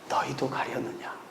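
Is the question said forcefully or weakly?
weakly. It is said weakly, without energy.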